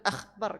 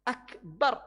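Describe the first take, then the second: First: The middle consonant is a throaty, rasping kh. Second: The middle consonant is a plain, clean k. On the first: The speaker calls it wrong. "Jangan akhbar. ... Tidak tepat itu dekat ke kha mahratnya" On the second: The speaker calls it right. "Akbar. Allah maha besar"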